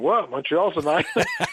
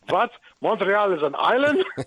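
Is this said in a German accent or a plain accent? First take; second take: plain; German. First: It is said in the speaker's ordinary accent. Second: It is said in a put-on German accent.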